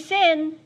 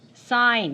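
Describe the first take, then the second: First: The vowel is short, as in 'it'. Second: The vowel is long, as in 'eye'. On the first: The speaker calls it wrong. "Don't say sin" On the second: The speaker calls it right. "Say sign"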